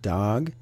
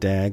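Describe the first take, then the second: First: The name is said with a 'dog' vowel. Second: The name is said with a 'dag' vowel. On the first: The speaker calls it right. "It's actually pronounced dog" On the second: The speaker calls it wrong. "you pronounced it dag last week"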